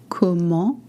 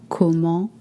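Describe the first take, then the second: Both takes have the same delivery.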